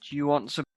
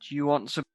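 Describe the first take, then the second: Both takes have the same delivery.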